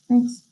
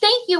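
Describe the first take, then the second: First: It sounds flat, with no emotion. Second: It sounds happy and grateful.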